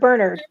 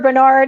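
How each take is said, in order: First: It is said in a Southern way. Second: It is said in a non-Southern way. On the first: "I've heard Bernard from the South" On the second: "I've heard Bernard"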